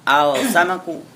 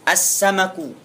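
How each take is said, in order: First: The article's l is pronounced before the s. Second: The article's l blends into a doubled s. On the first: The speaker calls it wrong. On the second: The speaker calls it right.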